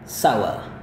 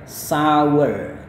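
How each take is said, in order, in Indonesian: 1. Diucapkan tanpa bunyi r di akhir. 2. Diucapkan dengan bunyi r di akhir. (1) "kalau British cara melafalkannya kayak gini" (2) "kalau mau Amerika"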